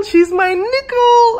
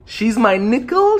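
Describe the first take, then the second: First: Much higher, slower, playful put-on voice; high squeaky voice. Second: Said in the usual way. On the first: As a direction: squeak it out like a cartoon. Repeats phrase in put-on voice.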